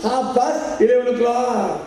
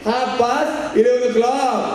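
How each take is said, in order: First: Slow careful English; mock English reply. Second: Slow careful English again; mock English reply. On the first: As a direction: recite it slowly like the lady did. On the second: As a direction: recite it slowly, proud of it. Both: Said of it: "ती म्हणली". (हळू इंग्रजी, परदेशी बाईची नक्कल)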